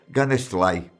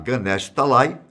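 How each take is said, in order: First: The words are clipped and run together. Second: Both words are said fully and separately. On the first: The speaker calls it wrong. "Saru sempre dizia Ganestlai" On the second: The speaker calls it right. "Em vez de falar Ganesh Talai"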